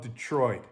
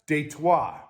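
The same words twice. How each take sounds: First: Detroit is said with an English accent. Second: Detroit is said with a French accent.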